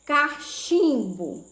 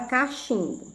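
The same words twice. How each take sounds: First: Slow dictation. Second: Said in the usual way. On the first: Shown as a demonstration. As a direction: draw out the middle of "cachimbo". Teacher introduces word to split.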